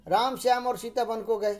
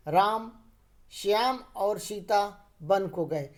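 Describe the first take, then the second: First: "राम Shyam" run together without a break; no stop between "राम" and "Shyam"; no comma pause. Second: "राम", brief stop, then slower "Shyam और Sita"; short pause after राम. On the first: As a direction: read straight through from "राम" to "गए". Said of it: "अगर हम अल्प विराम का प्रयोग नहीं करते". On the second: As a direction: set "राम" apart with a comma pause. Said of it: "राम के पश्चात हम अल्प समय के लिए रुके". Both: Shown as a demonstration.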